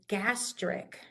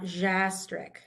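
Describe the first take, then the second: First: The word begins with a hard G sound. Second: The word begins with a soft J sound. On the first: The speaker calls it right. "We make it a hard sound" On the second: The speaker calls it wrong.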